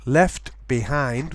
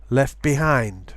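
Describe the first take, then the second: First: The t at the end of left is pronounced. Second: The t at the end of left is pronounced.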